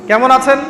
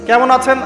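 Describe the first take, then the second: The two takes are said the same way.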